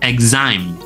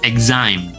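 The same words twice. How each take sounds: The two takes are said the same way.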